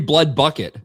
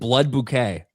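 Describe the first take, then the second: First: The second word sounds like plain bucket. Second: The second word sounds like French-style bouquet. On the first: The speaker calls it right. "It's supposed to be blood bucket" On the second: The speaker calls it wrong. "I've been saying blood bouquet"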